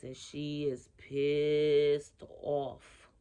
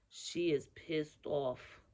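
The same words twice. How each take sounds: First: Slow, louder, every word leaned on; drawn-out emphasis. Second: Said in the usual way. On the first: Real, not acted. Telling viewers how mad grandma is, slowly stressed. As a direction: stretch out pissed off heavily. Describing a furious spirit grandma.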